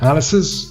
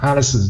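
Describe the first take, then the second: First: The ending has an s sound. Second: The ending has a z sound. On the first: "you can even say S" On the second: "or you can say Z"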